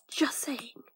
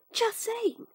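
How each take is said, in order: First: Said in the usual way. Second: Much higher, playful squeak-up; high-pitched repeat. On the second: Acted.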